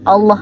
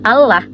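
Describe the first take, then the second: First: The L is said heavy and dark. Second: The L is said thin and light. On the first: The speaker calls it right. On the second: The speaker calls it wrong.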